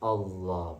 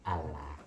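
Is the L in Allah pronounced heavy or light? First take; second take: heavy; light. First: The L is pronounced heavy and thick. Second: The L is pronounced light and thin. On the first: It shows reverence and glorifies God. The speaker calls it right. "Hanya bacanya Allah" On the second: It sounds like belittling God. The speaker calls it wrong. "bukan Allah, kayak orang Kristen"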